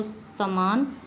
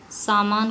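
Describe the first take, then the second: First: समान with short first vowel; Punjabi pronunciation. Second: Said in the usual way. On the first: Shown as a demonstration. Teacher showing how Punjabis say it, short-vowel समान. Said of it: "बोलते हैं". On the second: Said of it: "Punjabi भाषी".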